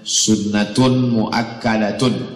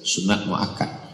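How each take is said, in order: First: The words end with full -atun case endings. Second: The words end clipped, without any final vowel. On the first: This is the full Arabic form. "Kalau bahasa Arabnya" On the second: This is the Indonesian form. "Kalau ada yang menyebut sunat muakkad itu bahasa Indonesia"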